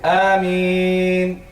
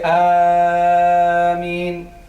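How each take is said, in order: First: The first vowel is held only briefly. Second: The first vowel is stretched out very long. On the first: This follows the Hafs way of reciting. The speaker calls it right. "somebody who recite in Hafs, he will say Ameen" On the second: This follows the Warsh way of reciting. The speaker calls it wrong. "It will not say Ameen, because this is not Warsh recitation"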